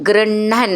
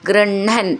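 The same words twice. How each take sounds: Both takes have the same delivery.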